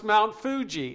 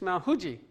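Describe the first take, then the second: First: It is said with an American English pronunciation. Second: It is said with a Japanese-style pronunciation. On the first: The speaker calls it wrong. "I thought it was Mount Fuji" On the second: The speaker calls it right. "It's Mount Fuji"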